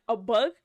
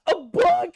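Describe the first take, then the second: First: Said in the usual way. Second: High, loud, cry-laughing disbelief; laughing incredulous repeat. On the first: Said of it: "And she was like". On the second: Retold or imitated. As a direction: repeat it breaking into a shrieking laugh. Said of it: "It's like".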